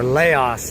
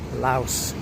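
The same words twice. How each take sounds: First: It is said imitating a famous politician's pronunciation. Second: It is said in the speaker's ordinary pronunciation.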